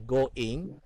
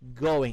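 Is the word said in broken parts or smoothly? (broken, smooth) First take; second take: broken; smooth. First: The word is split into separate parts. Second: The word is said smoothly in one go. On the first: The speaker calls it wrong. "You don't say going" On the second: The speaker calls it right. "one fast swoop"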